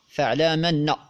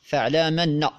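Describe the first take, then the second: First: The m takes a vowel and the glottal stop drops. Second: The m takes a vowel and the glottal stop drops.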